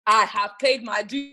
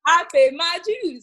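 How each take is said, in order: First: Slow, weighty stress on paid; the artist insists on her experience, slow and deliberate. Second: Louder, higher, slow declaration; repeating her point to the host, louder and higher; emphatic. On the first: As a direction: lean on paid, slow and firm. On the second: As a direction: proclaim it triumphantly. Repeats louder after laughing. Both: Real, not acted.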